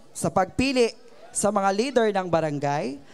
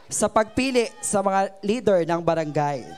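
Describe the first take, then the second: The two takes are said the same way.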